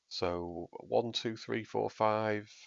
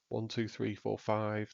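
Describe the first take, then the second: First: The voice goes through the signature EQ preset. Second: The voice goes through the full EQ preset. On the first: "This is the signature sound that I've got now" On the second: "This is the full sound preset"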